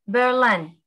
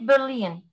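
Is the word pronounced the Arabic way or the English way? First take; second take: English; Arabic. First: The word is said with English pronunciation. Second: The word is said with Arabic pronunciation. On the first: The speaker calls it right. "In English Berlin" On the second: The speaker calls it wrong. "In Arabic برلين"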